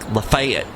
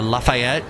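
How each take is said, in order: First: It is said with a Southern US pronunciation. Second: It is said with a French-like pronunciation. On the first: This is how the locals say it. "they call it, like" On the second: This is the name as it is written. "I lived near a place called uh"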